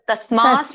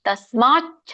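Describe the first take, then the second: First: The consonant after tasma is an s sound. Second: The consonant after tasma is a ch sound. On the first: The speaker calls it wrong. "ತಸ್ಮಾಸ್ ಅಂತ ಹೇಳ್ಬೇಡಿ ಅಲ್ಲಿ" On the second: The speaker calls it right. "ತಸ್ಮಾಚ್ ಚ ಸಣ್ಣ ಚ ಬರುತ್ತೆ"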